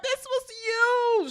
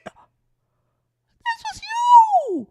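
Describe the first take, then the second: First: Said in the usual way. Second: Much higher, slow, breaking yell; cracking shout. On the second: Real, not acted. Vlogger yelling at Shirley, voice cracking high. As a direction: hurl the accusation in a cracking cry.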